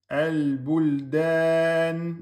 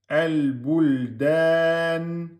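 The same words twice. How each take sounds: No difference in how they are said.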